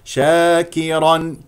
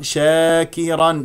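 First: The long a after sh is open and pure. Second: The long a after sh tilts toward e. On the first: The speaker calls it right. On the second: The speaker calls it wrong.

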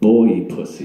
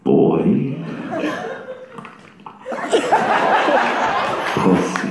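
First: It is said at normal speed. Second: It is said slowly and deliberately.

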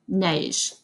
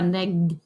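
First: The word ends with a soft zh sound. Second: The word ends with a hard g sound. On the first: The speaker calls it right. "Non, neige" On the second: The speaker calls it wrong. "pas neg"

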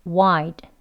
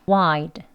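No difference in how they are said.

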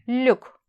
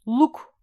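First: The U vowel is thin and fronted. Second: The U vowel is thick and back. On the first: The speaker calls it right. "İnce bir U var burada" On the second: The speaker calls it wrong. "Luk değil"

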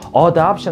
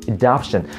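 First: The first vowel is a full, clear vowel. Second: The first vowel is a weak, reduced sound. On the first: The speaker calls it wrong. "너무 adoption 하시지 할 필요는 없다라는 거예요" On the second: The speaker calls it right. "아주 약하게 뭐, 으로 발음하셔도 상관없거든요"

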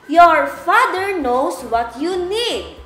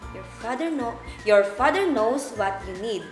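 First: It is spoken at a very loud volume. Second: It is spoken at a normal volume. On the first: "we're going to use a very loud voice" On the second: "we're going to recite it in a normal voice"

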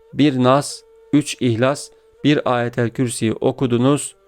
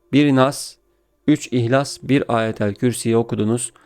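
No difference in how they are said.

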